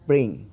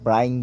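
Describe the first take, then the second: First: The vowel sounds like a short 'ee'. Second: The vowel sounds like 'eye'. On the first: The speaker calls it right. "B R আই N G ব্রিং" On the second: The speaker calls it wrong. "অনেকেই কিন্তু ভুল উচ্চারণ করে থাকি"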